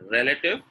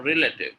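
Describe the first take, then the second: First: RELATIVE with short "rel" and reduced middle; correct pronunciation. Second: RELATIVE starting "ree-lay", like relate; wrong pronunciation. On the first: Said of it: "Relative is correct". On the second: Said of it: "Relative is incorrect". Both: Shown as a demonstration.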